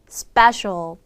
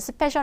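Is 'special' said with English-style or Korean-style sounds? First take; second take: English-style; Korean-style. First: The word is said with English-style sounds. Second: The word is said with Korean-style syllables. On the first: The speaker calls it right. "아니라 special" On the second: The speaker calls it wrong. "스페셜 아니라"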